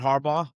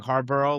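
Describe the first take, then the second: First: The name ends with a short 'baw' sound. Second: The name ends with a 'borough' sound. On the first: The speaker calls it right. "it's John Harbaugh" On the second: The speaker calls it wrong. "I know you've been saying Harborough, like from the borough"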